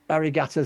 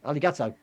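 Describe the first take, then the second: First: The middle consonant is a clear R sound. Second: The middle consonant is an L sound. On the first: The speaker calls it wrong. "I'm putting an R in where it's not" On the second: The speaker calls it right. "it's not an R"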